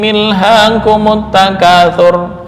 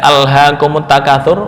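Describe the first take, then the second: First: The opening hamzah is dropped, linked with an 'i'. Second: The opening hamzah is pronounced with an 'a' vowel. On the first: The speaker calls it wrong. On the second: The speaker calls it right.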